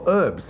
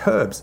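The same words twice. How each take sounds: First: The h at the start is silent. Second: The h at the start is pronounced. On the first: This is the American way of saying it. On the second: This is the non-American way of saying it.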